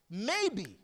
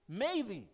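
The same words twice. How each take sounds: The two takes are said the same way.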